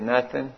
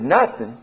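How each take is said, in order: First: Quiet, matter-of-fact reply; retold doctor's low-key answer; understated grave answer. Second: Mildly incredulous questioning echo; retold, understated disbelief; disbelieving echo. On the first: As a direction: break bad news softly, without emphasis. Doctor's flat answer in bad-news exchange. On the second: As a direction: query it back in disbelief. His disbelieving echo of doctor.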